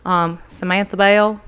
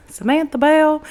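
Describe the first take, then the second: First: Said in the usual way. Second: Light Southern accent on "Samantha Bell", pitch higher. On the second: Shown as a demonstration. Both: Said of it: "I could say it all the time in a Southern accent".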